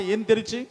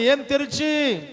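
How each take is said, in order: First: Said in the usual way. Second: ఏం తెరిచి called out higher and slower; rousing slow call for a louder answer; louder prompt. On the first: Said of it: "అందరూ అనండి ఆ మాట". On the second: Shown as a demonstration. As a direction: push the congregation to shout ఏం తెరిచి. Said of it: "ఇంకొంచెం బిగ్గరగా చెప్పండి".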